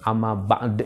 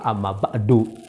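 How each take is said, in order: First: The last word ends with no final vowel. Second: The last word ends with a u vowel. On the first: The speaker calls it wrong. "jangan diwakafkan. Amma ba'd jangan" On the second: The speaker calls it right. "yang tepat itu adalah amma ba'du"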